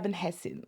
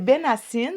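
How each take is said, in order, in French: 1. Le nom se prononce avec un son h. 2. Le nom se prononce sans son h. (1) "si jamais tu veux le prononcer en arabe" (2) "On prononce pas le H quand on le prononce en français"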